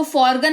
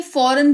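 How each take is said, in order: First: फॉरगन with a hard g before the n; फॉरगन, g pronounced; wrong reading. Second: फॉरेन with the g left silent. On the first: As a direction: say फॉरगन with the g sounded. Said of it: "इसको फॉरगन नहीं". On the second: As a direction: say फॉरेन, no g sound. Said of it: "फॉरेन पढ़ते हैं". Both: Shown as a demonstration.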